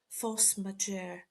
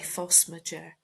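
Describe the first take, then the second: First: It is pronounced with a French accent. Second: It is pronounced with an English accent. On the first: "I tried to say it correctly" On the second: "We say force majeure"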